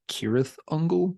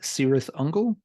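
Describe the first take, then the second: First: The first word begins with a hard K sound. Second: The first word begins with a soft S sound. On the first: This follows the original elvish pronunciation. "should be pronounced" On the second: This is how the band itself says it. "The band pronounces the name"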